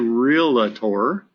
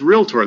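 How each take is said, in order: First: It is said with an extra middle syllable. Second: It is said with no extra middle syllable. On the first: The speaker calls it wrong. "It doesn't say" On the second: The speaker calls it right. "There's no extra syllable in the middle"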